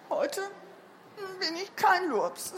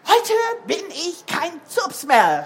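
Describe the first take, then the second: First: Put-on subdued, halting child's announcement; feeble child. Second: Put-on loud, high, jubilant child; beaming. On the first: Pale Bruno tells Mama in the kitchen, feebly. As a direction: hesitate after the first word, weakly. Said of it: "Er war ganz blass". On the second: Recovered Bruno hops into Mama's kitchen, beaming loudly. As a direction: burst out with the good news. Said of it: "strahlte Bruno". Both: A narrator's reading.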